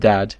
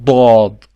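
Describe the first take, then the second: First: The D sound is plain and light. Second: The D sound is heavy and emphatic. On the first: The speaker calls it wrong. "it's not called dad" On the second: The speaker calls it right. "It's a heavy, very heavy D"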